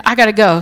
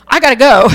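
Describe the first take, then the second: First: Said in the usual way. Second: Louder, eager and bursting; excited rush. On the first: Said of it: "And she said". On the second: Retold or imitated. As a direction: blurt it out, thrilled to leave. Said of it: "she texts her friend and she said".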